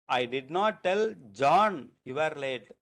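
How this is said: The stress falls on the word John. Someone other than that person was told. "the stress is on John"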